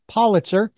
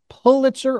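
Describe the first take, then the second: First: The first vowel is a short O. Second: The first vowel is not a short O. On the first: The speaker calls it right. "O with two consonants behind it is a short O" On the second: The speaker calls it wrong. "is it Pulitzer or Politzer?"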